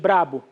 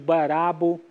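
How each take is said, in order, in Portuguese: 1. Começa com um encontro br bem junto. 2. Uma vogal extra separa o b e o r. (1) "em vez de brabo" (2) "hipêntese"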